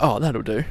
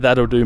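First: Softer, careless "Oh, that'll do." with a throwaway lilt; dismissive shrug. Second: Said in the usual way. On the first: Retold or imitated. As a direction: brush it off softly as "Oh, that'll do.". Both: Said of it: "that'll do" mindset".

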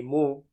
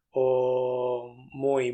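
First: Muy reduced to "mu", glide dropped; clipped mu. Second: Said in the usual way. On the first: Shown as a demonstration. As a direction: say "mu" instead of muy. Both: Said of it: "el famoso para".

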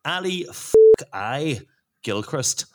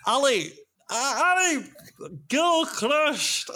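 First: Scottish accent attempt that comes out Northern Irish; failed Scottish accent. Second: Much higher, drawn-out Scottish accent on the name. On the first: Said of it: "Oh, that's Northern Ireland". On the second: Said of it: "That's Scottish ac". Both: Shown as a demonstration.

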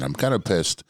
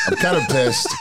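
First: Said in the usual way. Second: Said through a high laugh. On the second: Real, not acted. Friend laughing while pretending to be upset. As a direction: laugh your way through the line.

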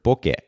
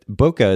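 First: "bokeh" said the Japanese way, BO-keh; Japanese pronunciation. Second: "Bokeh" said the anglicized way, BOH-kuh; everyday English pronunciation. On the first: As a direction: say "bokeh" as BO-keh, short vowels, clear "eh" ending. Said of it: "originally a Japanese word". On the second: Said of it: "not pronouncing the term correctly". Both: Shown as a demonstration.

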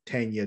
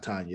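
First: Tanya said as TAN-ya; corrected pronunciation. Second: Tanya said as TAHN-ya; mistaken pronunciation. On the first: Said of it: "It's like Tanya". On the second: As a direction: say Tanya with an open "ah" sound. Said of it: "it's not Tanya". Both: Shown as a demonstration.

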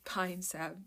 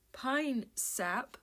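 First: Said in the usual way. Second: "Pine sap" said again, pitch rising on "sap" as a self-correction. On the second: Shown as a demonstration. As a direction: repeat "Pine sap" with a questioning lift. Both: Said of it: "I need to sniff some pine salve".

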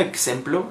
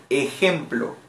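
First: "ejemplo" said with an English-style ks for the j; English-influenced slip. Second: Said in the usual way. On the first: Retold or imitated. Teacher catches herself mixing English into Spanish, "ejemplo" slipped as "eksemplo". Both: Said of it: "¿Por qué yo estoy diciendo ejemplo?".

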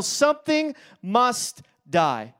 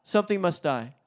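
First: Slow, weighty announcement of the title; title read slow and heavy. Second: Softer, falling echo of the title; hushed second reading of the title; quiet repeat. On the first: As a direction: let each word land. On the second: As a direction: repeat it quietly to let it sink in. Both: Shown as a demonstration. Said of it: "from the title".

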